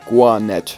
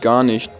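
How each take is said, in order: First: It is said in an Austrian dialect pronunciation. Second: It is said in standard German pronunciation.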